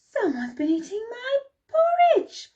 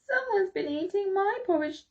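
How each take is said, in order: First: It is said in a great big voice. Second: It is said in a wee little voice. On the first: "bellowed in his great big voice" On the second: "in his wee little voice"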